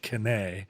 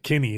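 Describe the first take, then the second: First: The name ends with an accented ay sound. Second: The name ends with a plain ee sound. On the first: The speaker calls it wrong. "I don't think there's an accent on the E, so it's probably not Kinney" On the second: The speaker calls it right. "I'm just going to go with Kinney"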